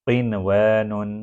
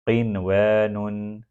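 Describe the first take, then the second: The two takes are said the same way.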